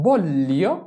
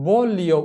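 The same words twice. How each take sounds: First: "বললিও" with the L held long before the glide; long gli sound. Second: "বলিও" with one brief L, no doubling; single short L. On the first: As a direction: hold the double L in "বললিও". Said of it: "এটা হচ্ছে". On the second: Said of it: "এটা বলিও উচ্চারণ না". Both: Shown as a demonstration.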